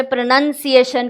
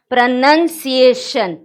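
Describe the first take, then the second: First: Said in the usual way. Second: प्रोनंसिएशन spoken slowly, each syllable clear; careful pronunciation. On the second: Shown as a demonstration. Teacher modelling प्रोनंसिएशन slowly for students. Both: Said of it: "ma'am ने क्या बोला".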